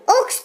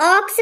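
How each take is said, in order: First: "ओक्स" like oaks, long pure o; wrong long o. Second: "ऑक्स" with an open aw vowel; correct open o. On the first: Teacher showing what is not taught, "ओक्स" with long o. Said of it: "ओक्स तो नहीं पढ़ाती". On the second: Teacher recalling school reading, "ऑक्स" with open aw. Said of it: "teacher ऑक्स पढ़ाती है". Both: Shown as a demonstration.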